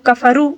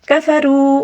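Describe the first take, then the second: First: The final vowel is short and not drawn out. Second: The final vowel is drawn out and lengthened. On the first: The speaker calls it wrong. "ज़्यादातर लोग कफरू इसी तरह पढ़ते हैं, हालांकि ये गलत है" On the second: The speaker calls it right. "वाव मद्दा को भी तकरीबन एक अलिफ के बराबर खींचकर पढ़ना होगा"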